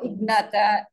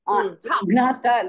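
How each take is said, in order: First: The first consonant is half, joined to the next. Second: The first consonant is said with a full vowel. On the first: The speaker calls it right. "keep the first one as ik" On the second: The speaker calls it wrong. "They should not be pronounced as full. Ignata, no"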